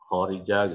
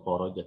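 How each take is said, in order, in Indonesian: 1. Vokal suku kata kedua adalah 'i'. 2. Vokal suku kata kedua adalah 'o'. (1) "tapi khorija" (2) "bukan khoroja"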